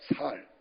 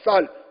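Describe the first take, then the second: First: The first consonant is a plain S. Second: The first consonant is a tense S. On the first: The speaker cannot produce the tense sound. The speaker calls it wrong. "이 쌀 발음이 안 되는 거예요" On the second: Someone asks for the word to be said properly. The speaker calls it right. "한번 쌀 해봐"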